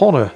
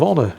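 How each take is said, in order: First: The word begins with an audible H sound. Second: The word begins with no H sound. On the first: The speaker calls it wrong. "it's not Medal of Honor, is it?" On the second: The speaker calls it right. "You, you don't pronounce the H"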